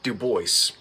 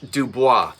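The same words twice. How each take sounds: First: The name is said the South Jersey way. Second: The name is said the French way. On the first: This is how the local family says it. "They call it Dubois" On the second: This is how it is said in France. "In France"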